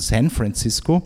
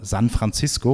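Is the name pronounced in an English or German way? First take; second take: English; German. First: The name is pronounced with English sounds. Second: The name is pronounced with German sounds. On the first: The city keeps its foreign, glamorous aura. The speaker calls it right. "und nicht von San Francisco" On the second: The foreign city loses its exotic aura. The speaker calls it wrong. "einfach deutsch auszusprechen"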